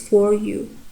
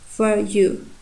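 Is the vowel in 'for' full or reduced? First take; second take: full; reduced. First: The vowel in 'for' is full. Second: The vowel in 'for' is reduced to schwa. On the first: The speaker calls it wrong. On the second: The speaker calls it right.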